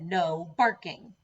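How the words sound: It is said firmly, with strong emphasis.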